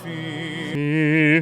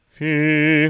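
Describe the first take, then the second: First: The vowel has a strong bright nasal resonance. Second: The vowel has no nasal resonance at all. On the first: "little bit of ping in the nose ... I'm overdoing it a little bit" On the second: "no nasal resonance would be fee"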